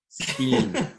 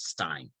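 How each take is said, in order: First: The vowel sounds like the letter 'e'. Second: The vowel sounds like the word 'eye'. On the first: This is the pronunciation a listener insists on. "but she says no. Steen" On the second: This is the pronunciation the reference page gives. "Their Wikipedia page says Stein"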